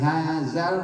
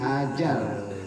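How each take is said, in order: First: The middle consonant is a plain z sound. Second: The middle consonant is a j sound. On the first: "bukan hazal" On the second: "apalagi hajal"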